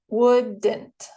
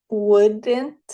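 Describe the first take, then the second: First: "wouldn't" split into would-dn't, falling at the end; two syllables. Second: Said in the usual way. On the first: Shown as a demonstration. Teacher shows learners the syllables, "wouldn't" in two distinct parts. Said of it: "Dos sílabas". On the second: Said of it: "Otra vez".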